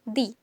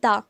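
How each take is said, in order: First: The word is said with a long 'ee' vowel. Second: The word is said with a short 'uh' vowel. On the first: The next word starts with a vowel. "Here we pronounce like दी" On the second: The next word starts with a consonant. "यहाँ पे हम कैसे pronounce करेंगे, द"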